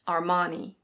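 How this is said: It is said with an American pronunciation, R sounded. "In American English, it's similar, but the R is pronounced"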